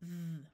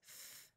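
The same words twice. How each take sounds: First: The sound is buzzed with the voice vibrating. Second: The sound is hissed with no voice buzz. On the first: "the voiced is th" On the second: "the unvoiced sound is th"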